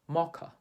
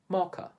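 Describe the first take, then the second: Both takes have the same delivery.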